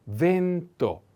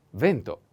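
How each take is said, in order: First: Vento slowly in two parts, ven-to; slow model pronunciation. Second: Said in the usual way. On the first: Shown as a demonstration. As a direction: stretch the stressed e of vento, higher pitch. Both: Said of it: "The accent is on".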